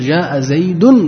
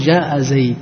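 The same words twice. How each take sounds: First: The name ends with an audible n sound. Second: The name ends without a final n sound. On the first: The phrase continues into more words. "عند الوصل تقول" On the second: The phrase ends here with a pause. "عند الوقف ما ينطق بها"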